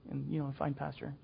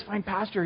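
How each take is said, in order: First: "find pasture" tossed off soft and flat; dull reading. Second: "Find pasture" lifted higher, stressing FIND; eager emphasis. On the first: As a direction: say "find pasture" like it means nothing. Dull version of the verse. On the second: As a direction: sell "Find pasture" as a promise. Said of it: "it's like you're gonna go out and you're gonna have the cream of the crop". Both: Shown as a demonstration.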